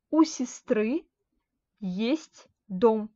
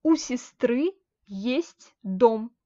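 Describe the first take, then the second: First: Said in the usual way. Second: У сестры есть дом said very slowly, word by word; slow model reading. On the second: Shown as a demonstration. Teacher modelling the example sentence slowly for students. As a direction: lay out each word slowly for the class. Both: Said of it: "Par exemple".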